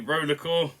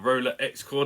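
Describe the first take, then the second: First: The X is left silent in the name. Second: The X is pronounced aloud in the name. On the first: "it's a silent X" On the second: "depending on how you want to say it"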